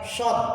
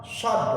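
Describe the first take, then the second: The two takes are said the same way.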